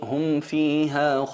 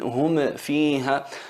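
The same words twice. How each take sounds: First: The M is clear and smooth, without a bounce. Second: The M is popped with an added bounce. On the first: The speaker calls it right. "insistes en pronunciarla bien" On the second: The speaker calls it wrong. "no picar la letra... como hacen algunos"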